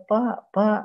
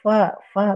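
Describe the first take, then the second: First: The word begins with a p sound. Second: The word begins with an f sound. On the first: The speaker calls it wrong. "biasanya pak pak" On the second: The speaker calls it right. "nggak bisa nyebut fa fa"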